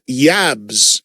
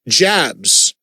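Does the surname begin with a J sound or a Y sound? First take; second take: Y sound; J sound. First: The name begins with a Y sound. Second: The name begins with a J sound. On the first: The speaker calls it right. "like with a Y, even though it's a J" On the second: The speaker calls it wrong.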